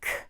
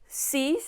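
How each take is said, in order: First: The letter is said as a short /k/ sound. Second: The letter is said as its name 'see'. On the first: The speaker calls it right. "use this sound" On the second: The speaker calls it wrong. "instead of"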